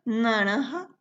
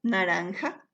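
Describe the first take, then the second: First: Naranja said "naraha", no n before the j; Guarani adaptation. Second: Said in the usual way. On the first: Shown as a demonstration. Teacher showing students the phonetic adaptation, naranja as "naraha". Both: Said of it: "recuerden la adaptación fonética".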